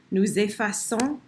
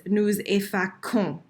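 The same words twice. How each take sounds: First: Effaçons said with a soft s sound, "effassons". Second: Nous effaçons with a hard k sound, "effakons"; wrong hard c. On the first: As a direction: give effaçons a clear soft s. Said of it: "Remember our c'est, c'est, dia? It makes soft s sound". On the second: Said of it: "If I do this, look at my rule. I would have to say this". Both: Shown as a demonstration.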